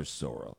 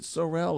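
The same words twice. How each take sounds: First: "Sorrell" as SORE-ul; "Sorrell" with a weak, swallowed ending; second pronunciation option. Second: "Sorrell" as suh-RELL; "Sorrell" with a clear RELL ending; first pronunciation option. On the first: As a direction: stress the first syllable of "Sorrell". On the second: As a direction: stress the second syllable of "Sorrell". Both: Shown as a demonstration. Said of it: "Is it Sorrell or Sorrell?".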